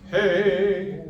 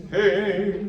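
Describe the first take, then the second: First: The vowel is tall with rounded corners. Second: The same.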